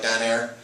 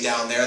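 First: It is said in a Pittsburgh accent. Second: It is said in a standard accent.

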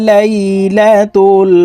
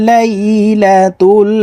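Both takes have the same delivery.

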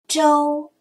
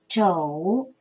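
First: The syllable has a high level tone. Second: The syllable has a low dipping tone. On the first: "一声周" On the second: "三声肘"

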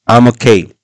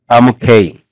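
Both takes have the same delivery.

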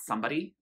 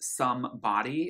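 First: The two parts run together as one word. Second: The two parts are said as separate words. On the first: The speaker calls it wrong. "It's not somebody" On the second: The speaker calls it right. "it's not contracted to be one word"

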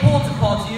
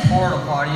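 First: It is said in a posh British accent. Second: It is said in a plain, everyday accent. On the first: It sounds delightful and sophisticated. "But when I say porta potty, you go, oh, that sounds delightful indeed" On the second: It sounds unpleasant and crude. "when Declan says porta potty, you go, oh my, I can smell it from here"

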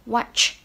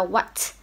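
First: The word ends with a ch sound. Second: The word ends with a t sound. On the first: The speaker calls it right. "mình sẽ đọc âm này là ch, chu môi ch" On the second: The speaker calls it wrong. "chị đang đọc là what. Hơi hơi t"

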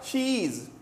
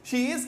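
First: It is blended into one contracted syllable. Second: It is said as two separate words.

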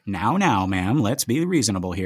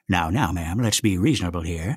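First: It is said in the speaker's plain voice. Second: It is said in a calm, authoritative character voice.

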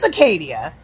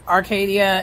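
First: It is said without an r sound. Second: It is said with an r sound. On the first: The speaker calls it right. "it's Acadia" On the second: The speaker calls it wrong. "that's not how you say it"

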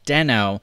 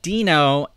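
First: The first vowel sounds like 'deh'. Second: The first vowel sounds like 'dee'. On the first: The speaker calls it wrong. "and not Deno" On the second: The speaker calls it right. "I'm calling it Deno"

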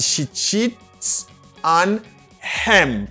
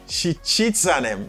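First: The h at the start of 'him' is pronounced. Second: The h at the start of 'him' is silent. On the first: The speaker calls it wrong. "Ou pas qu'a dit she cheats on him. Parce que H la aspiré là" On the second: The speaker calls it right. "H la vin obligé silent. You got a silent H"

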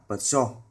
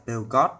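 First: The name is read the standard way. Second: The name is read the common local way. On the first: The speaker calls it right. "nhưng đúng chúng ta nên đọc là" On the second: The speaker calls it wrong. "Chúng ta hay đọc cái hãng xe này là"

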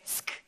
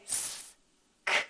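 First: The s and k sounds are blended together. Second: The s and k sounds are said separately. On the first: "or we can blend them together and say sk" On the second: "we can pull them apart to say sk"

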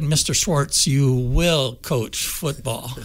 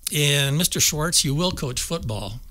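First: It is said in a stern voice. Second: It is said in a mild voice.

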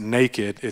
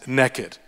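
First: The word is said with a standard pronunciation. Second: The word is said with a Texan pronunciation. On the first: The speaker calls it wrong. "you don't pronounce it naked" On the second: The speaker calls it right. "We're in Texas. It's naked"

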